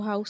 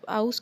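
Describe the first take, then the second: First: The word begins with an h sound. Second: The word begins without an h sound. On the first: "वो हाउस नहीं कहेंगे" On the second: "वो ह sound use नहीं करते, मतलब आउस कहेंगे"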